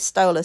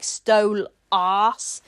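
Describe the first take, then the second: First: The name is said plainly as one word. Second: The name sounds like the words 'stole ass'. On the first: The name is said neutrally. "I say Stolas" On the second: The name is twisted to mock its bearer. "to make it sound like stole ass"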